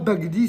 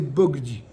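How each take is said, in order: First: The first vowel is an open 'a'. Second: The first vowel is an 'o'. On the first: The speaker calls it wrong. "c'est pas Bagdi" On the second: The speaker calls it right. "c'est Bogdi"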